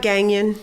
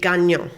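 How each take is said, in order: First: The name is pronounced the English way. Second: The name is pronounced the French way. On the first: "common common terms" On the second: "if you want to pronounce it French"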